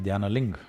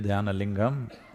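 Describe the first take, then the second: First: The name ends without its last syllable. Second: The name ends with its last syllable sounded. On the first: "they'll say Dhyana Ling. ... the last syllable, they'll cut it off" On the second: "If you say Dhyana Lingam"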